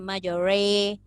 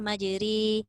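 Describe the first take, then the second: First: The r sound is heavy and thick. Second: The r sound is light and thin. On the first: The speaker calls it wrong. "Jangan majore. Itu jadi tebal" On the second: The speaker calls it right. "Tarkik tadi maksudnya nipis lah"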